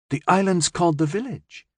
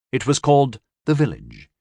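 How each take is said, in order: First: Put-on puzzled, rising child's question; puzzled girl questioning the name. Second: Said in the usual way. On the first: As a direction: ask it in disbelief. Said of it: "Jay asked in puzzlement".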